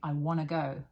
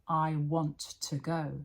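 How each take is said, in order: First: Want and to merge into one reduced word. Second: Want and to are said fully and separately. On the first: "Native speakers say" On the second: "Textbooks write"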